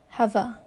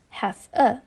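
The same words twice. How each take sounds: First: The v runs straight into the next word. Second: The two words are said separately. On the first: "the last sound of the first word, which is v, is combined with the first sound of the next word" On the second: "instead of"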